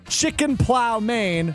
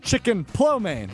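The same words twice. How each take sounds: First: It is read plainly, the way it looks. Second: It sounds like the dish name lo mein. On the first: "It is spelled this way" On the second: "pronounced Chicken Plow Maine. It's like Chicken Lo Mein"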